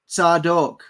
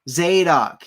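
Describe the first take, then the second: First: The name is said with its Hebrew pronunciation. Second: The name is said with its English pronunciation.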